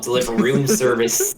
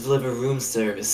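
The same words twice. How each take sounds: First: It is spoken in an exaggerated American accent. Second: It is spoken in the character's usual non-American accent. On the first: The speaker calls it wrong. "full-blooded American accent" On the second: The speaker calls it right. "Go back"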